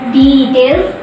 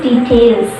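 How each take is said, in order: First: It is stressed in the British English way. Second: It is stressed in the American English way. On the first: "in British English, uh, it is details" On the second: "in American English, it is details"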